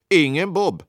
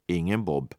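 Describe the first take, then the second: First: "Ingen Bob" higher with "Bob" stressed; emphatic. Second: "Ingen Bob" low and soft, falling; plain. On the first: Narrator marking the lateness, stressing "Bob" in "Ingen Bob". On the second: Narrator counting minutes, "Ingen Bob" softly falling. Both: A narrator's reading.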